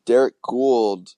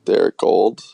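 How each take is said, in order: First: "Gould" rhyming with cooled, drawn out. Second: "Gould" said with a long o, like gold. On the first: Real, not acted. Co-host naming the reporter, "Gould" said with an oo. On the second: Shown as a demonstration. Co-host trying the reporter's surname, "Gould" said like gold. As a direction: say "Gould" rhyming with old. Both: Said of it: "is it Gold or Gould".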